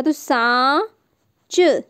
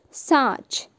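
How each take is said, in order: First: सांच stretched very slowly with a nasal आं; drawn-out nasal word. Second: Said in the usual way. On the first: Shown as a demonstration. Teacher stretches the word for children, very slowly. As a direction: hold the nasal vowel of सांच long. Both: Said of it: "और इसमें चंद्र बिंदु लगा".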